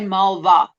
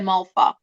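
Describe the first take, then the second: First: The middle consonant is a voiced v sound. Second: The middle consonant is a voiceless f sound. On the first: The speaker calls it wrong. "We don't say Malva" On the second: The speaker calls it right. "we say a soft V. ... We say Malfa"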